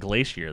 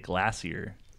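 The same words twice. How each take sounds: First: It is said in the speaker's usual pronunciation. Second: It is said in an imitated British pronunciation. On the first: This is how the word should be said. The speaker calls it right. "How about uh, g- glacier?" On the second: British people say it this way. The speaker calls it wrong. "They say glacier"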